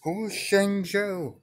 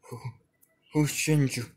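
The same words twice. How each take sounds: First: Very high, loud and slow shriek; a piercing, drawn-out scream. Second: Higher, louder frightened yell; a high, loud yell of confusion; screaming. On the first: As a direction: stretch it into a desperate scream. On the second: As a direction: cry out the question in panic. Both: Acted. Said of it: "Naruto would be screaming".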